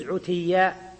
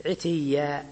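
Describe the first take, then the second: First: "عتيا" with a short u after the ʕayn; damma on first letter. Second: "عتيا" with a short i after the ʕayn; kasra on first letter. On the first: Teacher showing the permitted variant, "عتيا" opening with damma. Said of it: "ويجوز عتيا". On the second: Teacher reciting the verse's form to students, "عتيا" opening with kasra. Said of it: "ثم حركت التاء بالكسر". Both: Shown as a demonstration.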